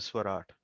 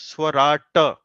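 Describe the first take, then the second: First: The final ta sound is cut short. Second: The final ta sound is fully voiced. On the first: The speaker calls it right. "sound of ta actually is only half" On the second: The speaker calls it wrong. "I think you pronounce swarata"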